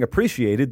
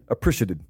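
First: All syllables of the word are fully pronounced. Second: Some syllables of the word are shortened. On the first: The speaker calls it right. "the way you should say it" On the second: The speaker calls it wrong. "you just end up saying appreciated, and it sounds ridiculous"

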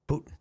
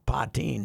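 First: The name is said like 'Putin'. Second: The name is said like 'Patine'. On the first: This sounds like the Russian leader's name. The speaker calls it wrong. "which sounds too much like Putin" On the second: This is how the woman herself says her name. The speaker calls it right. "She pronounces it Patine"

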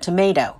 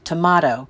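First: The middle syllable has no 'ah' vowel. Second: The middle syllable has an 'ah' vowel. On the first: It refers to an ordinary commercial tomato. "we happily call it a tomato" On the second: It refers to a fine homegrown tomato. "the proper pronunciation is definitely tomato, with emphasis on the ah"

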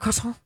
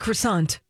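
First: The final T is silent, French style. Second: The final T is clearly pronounced. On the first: "I do not go to a place and order a croissant" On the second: "With a hard T"

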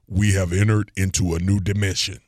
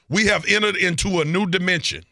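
First: It is said in a deep voice. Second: It is said in his normal voice.

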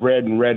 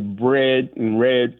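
First: The words have a non-Southern accent. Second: The words have a mid-Southern accent. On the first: "instead of bread and red" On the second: "I sort of inherited a mid-Southern accent. I would say bread and red"

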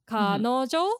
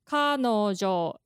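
First: The pitch goes low, then high, then high. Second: The pitch goes high, then low, then low. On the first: This is the trendy way young people say it. "But kanojo is, like, low, high, high" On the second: This is the standard dictionary pronunciation. "kanojo is the standard way, and then that's high, low, low"

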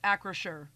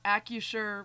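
First: The name is said with an R sound. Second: The name is said without an R sound. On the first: The speaker calls it right. "It is AccraSure with an R" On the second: The speaker calls it wrong. "It is not AccuSure with a silent R"

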